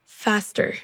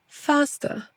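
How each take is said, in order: First: American accent. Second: British accent. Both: Shown as a demonstration. Drill alternates American and British.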